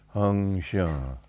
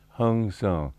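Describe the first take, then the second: First: The second word starts with an sh sound. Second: The second word starts with an s sound.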